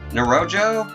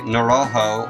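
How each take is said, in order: First: The last syllable begins with a J sound. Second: The last syllable begins with an H sound. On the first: The speaker calls it right. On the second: The speaker calls it wrong.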